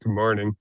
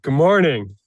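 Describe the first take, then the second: First: The greeting is said with lower energy. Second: The greeting is said with higher energy.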